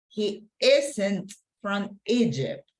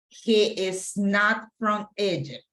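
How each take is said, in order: First: Is and not are merged into one word. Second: The words is and not are said separately.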